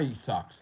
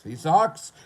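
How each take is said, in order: First: Said in the usual way. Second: Higher, louder sing-song jeer; mock taunt. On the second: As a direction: jeer like a playground bully. Taunt said low then high.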